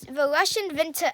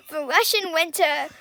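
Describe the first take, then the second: First: A hint of a German accent, v for w in winter; Russian winter said with a slight German accent, vinter; slipping German accent. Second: Said in the usual way. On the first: Real, not acted. Kid explaining the war to Mom, slips into a light German accent. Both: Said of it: "I'm starting to get a German accent".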